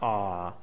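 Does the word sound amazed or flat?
flat. The word is said flatly, without wonder. The speaker calls it wrong. "Not awe"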